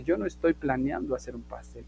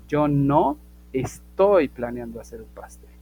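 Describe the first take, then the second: First: Said in the usual way. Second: "no estoy" stretched out and emphasized; stress on NO ESTOY. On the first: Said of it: "si estamos negando la primer parte". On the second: Shown as a demonstration. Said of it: "No, no, no".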